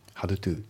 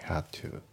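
First: The D in 'had' is pronounced. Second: The D in 'had' is dropped. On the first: The speaker calls it wrong. "Had to じゃなくて" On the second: The speaker calls it right. "Had のD が抜けますね"

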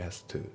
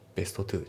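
First: The t at the end of 'best' is dropped. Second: The t at the end of 'best' is pronounced. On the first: The speaker calls it right. "best のT が抜けますね。" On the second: The speaker calls it wrong. "じゃなくて"

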